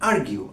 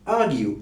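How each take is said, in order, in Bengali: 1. প্রথম স্বরধ্বনির পরের r শোনা যায়। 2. প্রথম স্বরধ্বনির পরের r নীরব। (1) "একজন আমেরিকান স্পিকার বলবেন আর্গিউ, আর সাউন্ডটি থাকবে" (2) "একজন ব্রিটিশ স্পিকার শব্দটি উচ্চারণ করবেন আর্গিউ, আর সাউন্ডটি স্কিপ করবেন"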